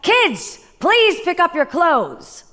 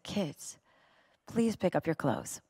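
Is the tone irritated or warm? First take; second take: irritated; warm. First: It is said in a reactive, irritated tone. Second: It is said in a soft, smiling tone.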